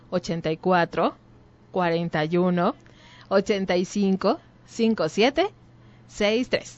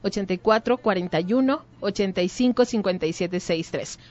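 First: It is said more slowly, in chunks. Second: It is said at a normal, quicker pace.

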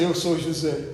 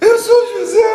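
First: It is said flatly, without emotion. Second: It is said with strong emotion.

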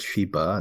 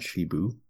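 First: The name ends in an 'ah' sound. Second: The name ends in an 'oo' sound. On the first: The speaker calls it right. "it's Shiba" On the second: The speaker calls it wrong. "not Shibu"

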